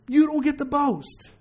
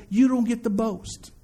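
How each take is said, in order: First: "don't get to boast" pitched higher, slowly; higher, measured restatement ending on "boast"; emphatic repeat. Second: Said in the usual way. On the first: Real, not acted. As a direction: drive home "boast" with a lifted, slow delivery.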